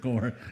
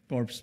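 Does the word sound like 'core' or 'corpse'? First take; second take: core; corpse. First: It is said with no final consonant sound. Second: It is said with a final s sound. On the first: It is a group still in training, not dead. The speaker calls it right. "Hindi, core. Core pa lang. Hindi pa patay" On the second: It would mean a dead body. The speaker calls it wrong. "Corps ba?"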